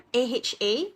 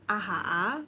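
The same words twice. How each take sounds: First: The letter names sound English-like, Malaysian style. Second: The letter names sound Indonesian.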